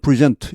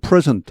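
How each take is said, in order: First: The stress is on the second syllable. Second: The stress is on the first syllable. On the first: It is the verb, meaning to give. "동사할 땐 present, 이음절에" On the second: It is the noun, meaning a gift. "명사할 땐 present, 일음절에"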